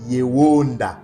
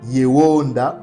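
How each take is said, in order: The two takes are said the same way.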